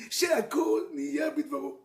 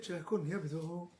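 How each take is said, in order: First: Blessing proclaimed louder, stress on שהכל. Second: Fast, soft, low blessing; quick blessing. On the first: Shown as a demonstration. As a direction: announce שהכל נהיה בדברו with weight on שהכל. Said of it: "The world". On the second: Retold or imitated. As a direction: rattle the blessing off quietly. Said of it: "And God said".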